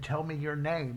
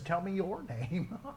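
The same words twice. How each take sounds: First: It is read plainly, without special inflection. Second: It is read with a striking, expressive inflection.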